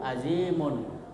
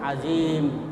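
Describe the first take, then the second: First: The word ends with an added un sound. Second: The word ends on a bare m sound. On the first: The reading continues to the next word. "kalau disambung" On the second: The reading stops at this word. "kalau kita berhenti disukunkan"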